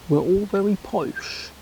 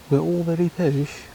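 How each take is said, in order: First: Lightly put-on posh English accent, higher in pitch; a hint of plummy posh English on very. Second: Said in the usual way. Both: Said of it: "or have a Cockney accent".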